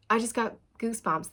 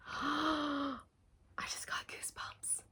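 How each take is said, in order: First: Said in the usual way. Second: Breathless whispered gasp; awed whisper. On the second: Real, not acted. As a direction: whisper it, overwhelmed. Sudden goosebumps realization.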